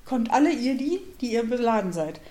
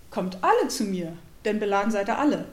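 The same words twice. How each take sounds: First: "die" stressed to single out only the burdened; rising lean on "alle ihr die", then "die ihr beladen seid" as a restriction; old reading, stress on die. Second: "alle" stressed, falling, meaning everyone; new reading, stress on alle. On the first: Retold or imitated. Preacher demonstrating his former emphasis, stressing "die". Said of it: "ich habe den so gelesen in der Betonung". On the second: Shown as a demonstration. Preacher showing today's reading, weight on "alle". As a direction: give "alle" the weight in both lines, "seid ihr alle" firm. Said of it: "Heute lese ich".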